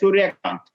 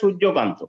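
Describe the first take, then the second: First: The name is said with a Hindi pronunciation. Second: The name is said with a Bengali pronunciation. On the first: "north Indian Hindi speaking লোক যখন pronounce করবে" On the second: "বাঙালি যখন pronounce করবে"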